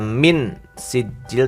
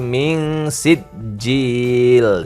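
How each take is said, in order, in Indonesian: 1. Bunyi n sebelum s diucapkan dengan jelas. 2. Bunyi n sebelum s terdengar kabur dan sengau. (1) "bukan dibaca min sijil" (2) "tapi min sijil, samar"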